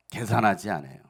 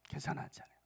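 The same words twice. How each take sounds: First: Said in the usual way. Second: Softer repeat. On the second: Shown as a demonstration. Pastor repeats the point to the church, much softer. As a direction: echo the line much softer, almost to yourself.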